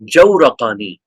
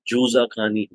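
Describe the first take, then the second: First: The middle consonant is an r sound. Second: The middle consonant is a z sound. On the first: The speaker calls it right. "ये ज़ा नहीं है बल्कि रा है" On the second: The speaker calls it wrong. "बाज़ किताबों में मिलेगा जुज़ाकानी"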